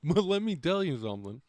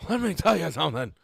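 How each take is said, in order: First: Said in the usual way. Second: Louder and faster, punching "tell" hard; loud emphatic. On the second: Shown as a demonstration. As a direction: hit "let me tell you something" like a warning.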